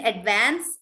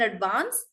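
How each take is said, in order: First: "advance" with a short A as in "van"; American A in "advance". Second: "advance" with a broad A as in "father"; broad British A in "advance". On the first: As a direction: say "advance" the American way, vowel as in "cat". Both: Shown as a demonstration. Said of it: "British and American".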